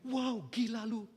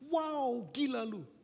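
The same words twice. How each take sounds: First: It sounds scornful and insulting. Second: It sounds admiring and impressed. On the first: The listener is being insulted. "gila yang kedua sebuah makian" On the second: The listener is being praised. "Gila yang pertama sebuah pujian"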